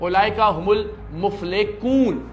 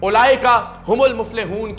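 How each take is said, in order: First: The last word has a k sound. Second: The last word has an h sound. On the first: The speaker calls it wrong. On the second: The speaker calls it right.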